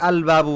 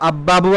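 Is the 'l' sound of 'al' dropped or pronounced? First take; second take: pronounced; dropped. First: The l sound is clearly pronounced. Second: The l sound merges into the b. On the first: The speaker calls it right. "বা আসলে লামের উচ্চারণ হবে" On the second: The speaker calls it wrong. "আমরা কি আব্বাবু বলবো"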